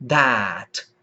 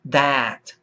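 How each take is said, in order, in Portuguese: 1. A vogal é um som de a do inglês britânico. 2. A vogal é um som de a do inglês britânico.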